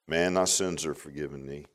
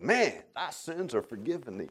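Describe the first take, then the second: First: It is said in a plain, matter-of-fact way. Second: It is said in an astonished, amazed way. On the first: The speaker calls it wrong. "I don't read it this way" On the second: The speaker calls it right. "I think he was astonished by their faith"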